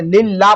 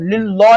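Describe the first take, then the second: First: लिल्ला with a light lam and open "aa"; लिल्ला with unrounded vowel after the lam; thin lam. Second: लिल्ला with heavy lam and rounded "o"; लिल्ला darkened, the mistake to avoid; wrongly thickened lam. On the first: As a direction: say लिल्ला thinly, "lillaa". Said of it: "लिल्ला पढ़ते हैं हम". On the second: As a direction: say लिल्ला as "lillo". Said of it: "नहीं पढ़ना है". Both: Shown as a demonstration.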